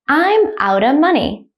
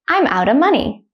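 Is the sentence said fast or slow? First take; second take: slow; fast. First: The sentence is spoken slowly. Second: The sentence is spoken at normal speed. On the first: "The first time I'll say it slowly" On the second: "at a normal speed, like a native speaker"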